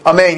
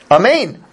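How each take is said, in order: First: It is said in a sarcastic tone. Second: It is said in a sincere tone. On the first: The agreement is not meant seriously. "it sounds like sarcasm" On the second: The speaker truly wishes it were so. "I think it was said in a sincere way"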